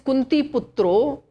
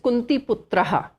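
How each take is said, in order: First: The word ends with an 'o' sound. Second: The word ends with an 'ah' sound. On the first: The word is joined to the next word. "when we are chanting the full shloka, then it is Kunti Putro" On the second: The word stands on its own. "when we are breaking the words, then it is Kunti Putraha"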